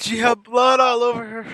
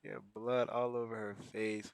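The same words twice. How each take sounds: First: Loud horrified outburst; shocked shout. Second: Soft, low repeat; quiet retelling. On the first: Seeing Granny covered in blood, shouts in horror. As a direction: shout it out in disbelief. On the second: Repeating to himself about Granny's face, quietly. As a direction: say it again quietly, letting it sink in. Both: Real, not acted.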